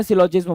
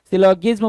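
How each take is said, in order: First: सिलोजिज्म with a j sound, as in "jam"; soft g variant. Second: सिलोगिज्म with a hard g, as in "give"; hard g variant. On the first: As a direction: say सिलोजिज्म with "jizm" at the end. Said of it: "कुछ लोग सिलोजिज्म भी बोलते हैं". (सिलोजिज्म, 'ज' की आवाज़ के साथ) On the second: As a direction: say सिलोगिज्म with "gizm" at the end. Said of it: "सिलोगिज्म भी कुछ लोग बोलते हैं". (सिलोगिज्म, 'ग' की आवाज़ के साथ) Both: Shown as a demonstration.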